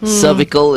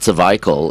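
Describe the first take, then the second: First: The word is pronounced the American way. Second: The word is pronounced the Australian way. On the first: "is the way the Americans pronounce it" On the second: "is the way the Australians pronounce it"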